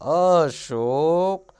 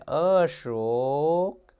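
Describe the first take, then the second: First: The name is called in a thin, soft voice. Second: The name is called in a thin, soft voice.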